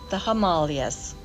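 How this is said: Himalayas is said the way they say it in India.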